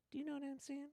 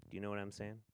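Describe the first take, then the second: First: Tiny, soft falsetto; comic high-pitched little voice; silly high voice. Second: Said in the usual way. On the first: Pretend. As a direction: squeak it out very high and quietly. Repeats catchphrase in silly voice.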